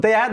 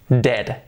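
First: "dead" read as deh-at, two vowels; Spanish-style "dead" with e and a sounded; wrong pronunciation. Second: Said in the usual way. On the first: Shown as a demonstration. Teacher showing what we don't say, mispronounced. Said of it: "no decimos dead".

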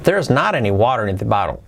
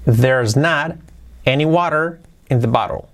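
First: Fluent unbroken sentence; brisk joined-up model; quicker repeat. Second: Broken into slow chunks; careful teaching take; slow model. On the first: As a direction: run it together, falling away after "not". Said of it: "Sería así". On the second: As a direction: pause after "not" and separate the phrases. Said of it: "luego un poquito más rápido". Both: Shown as a demonstration.

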